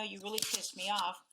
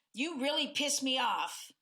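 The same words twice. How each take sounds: First: Calm tone. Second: Mildly irritated accusing tone; angry tone. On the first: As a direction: say it calmly, no bite. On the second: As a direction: let some heat into it. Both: Shown as a demonstration. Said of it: "in that tone as compared to".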